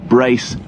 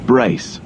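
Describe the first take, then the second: No difference in how they are said.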